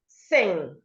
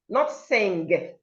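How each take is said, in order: First: The word ends in a nasal ng sound only. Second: The word ends with a hard g sound. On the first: The speaker calls it right. "the ng makes the sound sing" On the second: The speaker calls it wrong. "not g"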